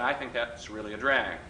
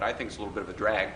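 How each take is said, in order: First: It is said with deliberate comic delivery. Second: It is said plainly, without comic delivery.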